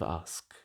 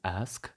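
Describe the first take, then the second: First: The vowel is a long open 'ah'. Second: The vowel is a short 'a' as in trap. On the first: "they are now pronounced with a long R" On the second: "northern accents pronounce ask with a trap vowel"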